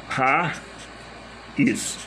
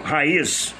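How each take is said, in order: First: "raiz" split in two, "ra", long pause, "iz"; separação de sílabas. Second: Said in the usual way. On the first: Shown as a demonstration. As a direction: break "raiz" into slow, separate syllables. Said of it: "Aí vamos separar as sílabas de raiz". ("raiz" dito sílaba por sílaba, com pausa longa) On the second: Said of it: "É o mesmo som".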